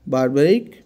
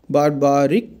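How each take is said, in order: First: Teacher repeats बारबारिक so students can copy it; repeated pronunciation demo. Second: बारबारिक said clearly, syllable by syllable, as bar-ba-rik; pronunciation demo. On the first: Teacher says बारबारिक a second time, calmly. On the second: Hindi teacher demonstrating the word बारबारिक, clearly. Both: Shown as a demonstration. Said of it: "इसे बोल देते हैं हम".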